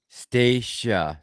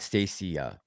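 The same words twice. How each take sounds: First: The name is said with two syllables. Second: The name is said with three syllables. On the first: The speaker calls it right. "normally two syllables" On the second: The speaker calls it wrong. "not Stacia"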